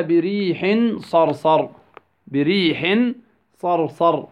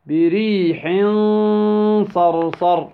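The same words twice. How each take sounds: First: Said in the usual way. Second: بريح صرصر with the tanween held as a long hum; ikhfa with ghunnah. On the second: Shown as a demonstration. Tajweed teacher answers his question, long humming ikhfa in بريح صرصر. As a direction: stretch the hidden nasal n between بريح and صرصر. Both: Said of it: "كيف ننطقها؟".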